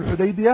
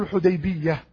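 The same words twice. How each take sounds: First: الحديبية with a single light final y; short unstressed -biya ending in الحديبية. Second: الحديبية with a doubled final y. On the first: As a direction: say الحديبية as Hudaybiya, y not doubled. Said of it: "بالتخفيف". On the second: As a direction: say الحديبية as Hudaybiyya. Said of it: "فإن فيها اللغتان". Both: Shown as a demonstration.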